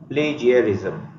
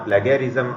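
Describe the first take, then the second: First: The middle consonant is a soft j sound. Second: The middle consonant is a hard g sound. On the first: The speaker calls it right. "Correct उच्चार आहे प्लेजियरिझम" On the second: The speaker calls it wrong. "प्लॅगियारिझम किंवा प्लॅगियारिझम असं नाही"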